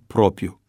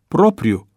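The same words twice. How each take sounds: First: The second r sound is dropped. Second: The second r sound is pronounced. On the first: The speaker calls it wrong. "nu propriu" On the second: The speaker calls it right. "Corect este propriu"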